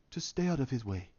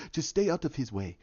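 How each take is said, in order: First: Low, hushed, understated advice; quiet warning. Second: Quiet warning. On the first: T'Challa warns the Wakandans, quiet and low. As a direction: drop to a soft, grave murmur. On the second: Repeats T'Challa's quiet warning. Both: Acted.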